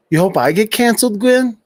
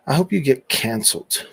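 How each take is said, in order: First: Thrown back higher and louder, incredulous; mocking echo. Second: Said in the usual way. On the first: Real, not acted. Streamer echoing a troll's comment back at her, mocking. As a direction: toss her words back at her, amused.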